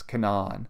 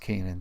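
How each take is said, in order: First: The name is said the local way. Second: The name is said the biblical way. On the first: The speaker calls it right. "somebody local told me it's Canaan" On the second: The speaker calls it wrong. "it's not pronounced Canaan"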